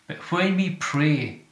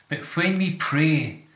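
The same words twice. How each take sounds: Both takes have the same delivery.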